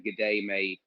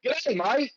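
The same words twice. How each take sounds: First: Said in the usual way. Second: High, cheery Australian twang; a playful Aussie greeting, sung upward; mock Aussie accent. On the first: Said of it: "But not with an Aussie accent". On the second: Shown as a demonstration. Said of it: "not with an Aussie accent or anything".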